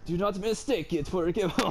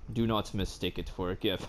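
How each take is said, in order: First: It is read with a put-on French accent. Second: It is read in the speaker's normal accent.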